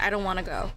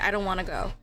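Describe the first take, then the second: First: The words blur together with reduced sounds. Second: The same.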